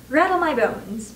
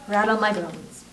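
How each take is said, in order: First: Slow spooky parrot, raised pitch. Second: Restrained, eerie ghostly voice; soft spooky voice. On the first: Parrot repeats its party trick, slow and spooky. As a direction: draw it out spookily, a little high. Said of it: "wonderful imitation of his spooky voice". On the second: Parrot haunting the dining room, soft and spooky. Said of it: "soft and spooky this time". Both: A narrator's reading.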